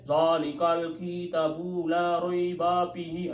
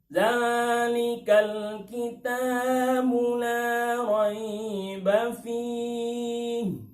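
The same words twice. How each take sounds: First: It is recited quickly and hurriedly. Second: It is recited slowly and calmly. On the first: The speaker calls it wrong. "itu bukan tartil namanya" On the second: The speaker calls it right. "contoh tartil itu begini, enggak cepat-cepat"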